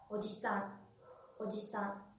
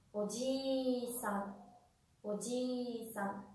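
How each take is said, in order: First: "Oji-san" short and soft, weight on final "san"; no lengthened I in "Oji-san"; i corta. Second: "oji-san" very slow, I held long: ojiii-san; i alargada. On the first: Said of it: "una sílaba tónica al final de la". ("Oji-san" con i corta y sílaba tónica final) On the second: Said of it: "Esa es la diferencia". ("oji-san" muy lento, con la i alargada) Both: Shown as a demonstration.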